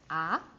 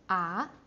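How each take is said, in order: First: The pitch climbs upward from mid to high. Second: The same.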